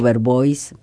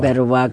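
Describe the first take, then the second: First: The name is pronounced in a Spanish way. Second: The name is pronounced in a French way. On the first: This is how the speaker usually says it. The speaker calls it wrong. "yo le digo Verbois" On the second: This is how the name should really be said. The speaker calls it right. "con la declinación francesa"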